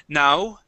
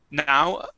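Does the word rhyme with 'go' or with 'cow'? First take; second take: cow; cow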